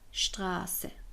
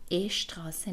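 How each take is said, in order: First: The word starts directly with the sh sound. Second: A short vowel comes before the sh sound. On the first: The speaker calls it right. "میگیم شتراسه" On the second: The speaker calls it wrong. "ش قبلش هم ا نمیگیم، اشتراسه نمیگیم"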